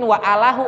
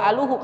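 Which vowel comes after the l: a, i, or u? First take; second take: a; u. First: The vowel after the l is a. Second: The vowel after the l is u. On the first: "enggak mungkin wa alahu" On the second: "atau wa aluhu"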